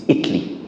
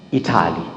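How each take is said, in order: First: Italy said right, squeezed into two syllables; correct pronunciation. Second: Italy wrongly said in three full syllables; wrong pronunciation. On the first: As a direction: drop the middle vowel of Italy. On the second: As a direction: stretch out the middle of Italy, the wrong way. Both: Shown as a demonstration. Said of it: "It's not".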